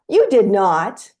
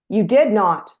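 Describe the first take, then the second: First: It sounds amazed and admiring, playfully impressed. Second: It sounds accusing and disbelieving, calling out a lie. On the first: The listener has done something impressive. "to you're so amazing and try again" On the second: The listener is lying. "I adjust my tone from liar, liar, pants on fire"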